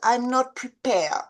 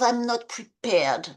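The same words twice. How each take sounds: First: The final consonant of prepared is dropped. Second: The final consonant of prepared is clearly pronounced. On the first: The speaker calls it wrong. "Jeff said" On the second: The speaker calls it right. "instead of"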